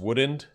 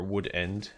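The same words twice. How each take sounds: First: The two words are run together casually. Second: Each word is enunciated clearly and separately.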